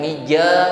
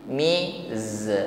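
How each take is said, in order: First: The consonant sounds like j, without hissing. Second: The consonant is a z with audible hissing. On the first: The speaker calls it wrong. "Jangan mija seperti huruf jim" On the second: The speaker calls it right. "jangan sampai tertinggal bunyi desisnya"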